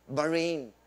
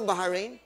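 First: Said in the usual way. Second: "Bahrain" as Ba-ha-rain, questioning; joke pronunciation. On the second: Shown as a demonstration. Speaker checks with the audience, joke pronunciation of "Bahrain" as Ba-ha-rain. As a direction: add a syllable to "Bahrain": Ba-ha-rain. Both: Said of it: "Di ba ang tamang pronunciation".

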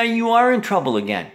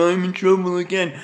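First: "are" pressed hard with a falling tune; stress on are. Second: Put-on mimic voice, higher; mocking quote. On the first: Real, not acted. Answering his own mock, stress on "are". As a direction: lean on "are" to confirm it. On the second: Mocking what the son keeps saying, in a put-on voice. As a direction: mimic the other person's whiny excuse.

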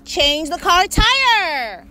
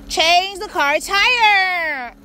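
First: Said in the usual way. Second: Slow, crying plea to the car; slow whimpering command; tearful plea. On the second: Real, not acted. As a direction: near tears, begging the car to obey. Car assistant keeps failing.

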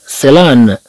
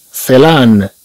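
Both takes have the same delivery.

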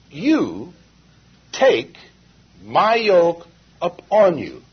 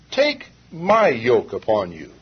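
First: Slow and louder, each word set apart, "You" and "take" punched; stress on you and take. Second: Said in the usual way. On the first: Shown as a demonstration. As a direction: pause between "You" and "take", then stress them both hard. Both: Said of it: "notice Jesus says".

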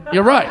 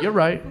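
First: Suddenly loud, emphatic agreement; acted hasty, loud concession; mock capitulation. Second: Said in the usual way. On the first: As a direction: give in loudly to an armed boss. Emphatic repeat to armed boss.

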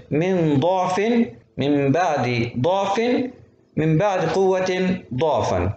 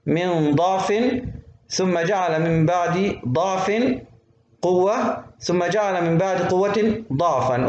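First: Slow recitation, each ضعف with rounded "u"; damma reading. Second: Slow recitation, each ضعف with open "a"; fatha reading. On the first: Teacher repeating the verse the other way, damma on ضعف. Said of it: "أقرأ الثلاث كلمات هذولا بالضم". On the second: Teacher reciting the verse for students, fatha on ضعف. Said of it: "بالفتح ضعف". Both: Shown as a demonstration.

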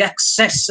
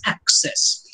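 First: "access" said ac-CESS; second-syllable stress. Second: "access" said AC-cess; first-syllable stress. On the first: Lecturer giving Shakespeare's stress, "access" as ac-CESS. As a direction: put the weight on the end of "access". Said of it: "although the modern pronunciation of access". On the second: Lecturer giving the modern pronunciation, "access" as AC-cess. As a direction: hit the start of "access", second syllable weaker. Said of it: "places the stress on the first syllable". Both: Shown as a demonstration.

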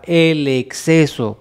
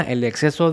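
First: "el exceso" slowly set apart, deliberately emphasised; stress on EXCESO. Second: Said in the usual way. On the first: Real, not acted. Advising viewers which sugar intake to cut, stressing "exceso". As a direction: lean on "exceso", spacing out its syllables. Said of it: "recalco la palabra".

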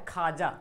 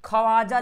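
First: खाजा with no w, pitched lower; usual spoken form. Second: ख्वाजा as "kha-waa-ja", louder, w sounded; spelling pronunciation. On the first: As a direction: silence the w, just "khaa-ja" for खाजा. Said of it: "पढ़ते क्या?". (खाजा में वाव silent) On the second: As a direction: punch out the written w in ख्वाजा. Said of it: "लिखा हुआ". (ख्वाजा को "खवाजा" पढ़ें) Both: Shown as a demonstration.

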